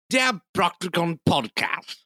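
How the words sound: It is read in a posh British accent.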